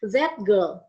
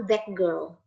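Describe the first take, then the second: First: Put-on "that" with its t kept before girl; unassimilated t. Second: Put-on "that" said as dak before girl; assimilated t to k. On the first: Teacher contrasting the harder version for students, t kept in "that". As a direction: keep a separate t in "that girl". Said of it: "Lebih enak coba ngomongnya daripada". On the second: Teacher showing the easier version, "that" ending in k. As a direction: slide "that girl" together with a k for the t. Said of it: "Lebih enak". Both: Shown as a demonstration.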